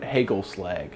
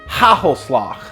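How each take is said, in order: First: The g sounds are plain hard g sounds. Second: The g sounds are harsh and throaty. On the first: "which a normal person would just pronounce that" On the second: "you don't sound like you're clearing out your sinuses"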